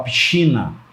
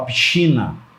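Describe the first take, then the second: First: The sc is sounded as sh. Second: The same.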